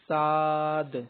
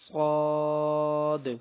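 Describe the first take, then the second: First: The letter name is said with a thin sound. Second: The letter name is said with a heavy sound. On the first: The speaker calls it wrong. "मजहूल यानी गलत पढ़ के बता रहा हूँ" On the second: The speaker calls it right. "मोटा करके पढ़ना है"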